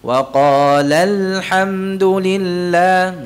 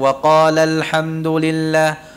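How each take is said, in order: First: It is read with the la syllable pressed. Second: It is read plainly without pressing the la syllable. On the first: The speaker calls it right. "ada tekanannya, la" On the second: The speaker calls it wrong.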